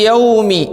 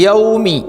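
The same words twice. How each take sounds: Both takes have the same delivery.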